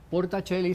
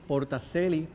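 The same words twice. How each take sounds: First: It is pronounced the Italian way. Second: It is pronounced the Latin way. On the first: "sería en italiano" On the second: "porque es en latín"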